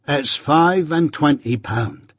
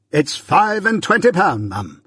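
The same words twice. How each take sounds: First: Slow, pleased announcement; raised pitch, savouring the sum; delighted reveal. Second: High-pitched, grand echo; pompous echo. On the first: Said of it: "delightedly handing the bag". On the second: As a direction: proclaim it as Pumblechook, much higher. Pumblechook echoes Joe pompously. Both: A narrator's reading.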